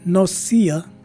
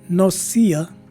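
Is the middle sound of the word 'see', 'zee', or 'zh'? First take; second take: see; see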